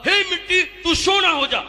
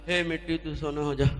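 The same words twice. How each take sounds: First: It is said with great enthusiasm. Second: It is said with little enthusiasm.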